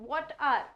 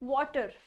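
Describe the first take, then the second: First: Both words are said fully and separately. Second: The words blend into one word, like 'water'.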